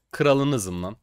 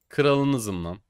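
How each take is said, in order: Both takes have the same delivery.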